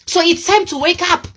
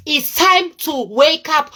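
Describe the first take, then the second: First: Said in the usual way. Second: Drawn-out wake-up call, each word weighted; slow emphatic warning. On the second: Real, not acted. Vlogger warns viewers to stop overspending, slow and emphatic. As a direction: stretch out "time to wake up", slow and higher.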